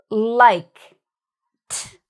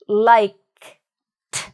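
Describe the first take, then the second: No difference in how they are said.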